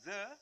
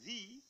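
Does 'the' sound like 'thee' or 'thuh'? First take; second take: thuh; thee. First: Said the way it is before a consonant sound. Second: Said the way it is before a vowel sound. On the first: "the dibunyakan the sama apabila diikuti huruf mati" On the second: "dibunyikan the apabila diikuti oleh bunyi hidup atau vokal"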